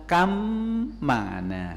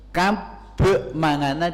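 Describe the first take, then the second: First: The first word ends with an m sound. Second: The first word ends with a b sound. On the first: This is how it is read. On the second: This is how it is written.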